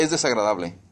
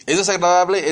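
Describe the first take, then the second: First: "Es desagradable." answered lower and softer, falling; flat answer. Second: "¿Es desagradable?" asked with a higher, louder rise; rhetorical question. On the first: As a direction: settle it: "Es desagradable.". (respuesta baja y suave: "Es desagradable.") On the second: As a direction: pose "¿Es desagradable?" as a question to the crowd. (pregunta retórica "¿Es desagradable?", más aguda y fuerte) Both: Shown as a demonstration.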